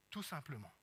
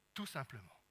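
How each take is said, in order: Both takes have the same delivery.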